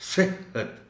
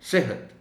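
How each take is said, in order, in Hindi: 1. दोहरे ह को ज़ोर से और भारी तरीके से दबाया जाता है। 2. दोहरे ह में बस हल्का सा इशारा होता है। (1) "ज़ोर देकर पढ़ेंगे तो कुछ अजब सा लगेगा" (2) "हल्का सा कम से कम इशारा तो हो"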